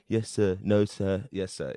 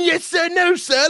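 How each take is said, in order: First: Low, soft, unenthusiastic recital; bland line delivery. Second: High, loud, scornful parroting; Ray Winston mocking. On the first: Retold or imitated. New prisoner answering a shouting guard, blandly. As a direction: give a bland, low-key reading. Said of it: "did a pretty bland performance of it". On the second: Actor mocking the student's bland reading, angrily imitated. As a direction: throw the meek reply back angrily. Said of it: "you're sitting there going".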